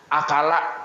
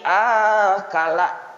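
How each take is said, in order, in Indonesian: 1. Vokal pertama pendek. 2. Vokal pertama panjang. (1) "Tak panjangi" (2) "Kalau pian panjangi"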